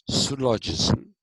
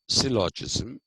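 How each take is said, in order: First: The first vowel sounds like 'u'. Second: The first vowel sounds like 'i'. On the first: This is the ancient Greek pronunciation. "instead of the Y, there would be a U" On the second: This is the modern English pronunciation. "in English today we call it syllogism"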